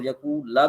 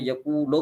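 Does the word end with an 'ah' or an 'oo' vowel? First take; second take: ah; oo. First: The word ends with an 'ah' vowel. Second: The word ends with an 'oo' vowel. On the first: "और यकूला भी पढ़ सकते हैं" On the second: "यकूलो भी पढ़ सकते हैं"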